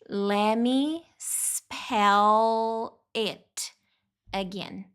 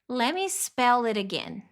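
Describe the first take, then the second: First: It is said at a normal, slower pace. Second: It is said quickly, words run together.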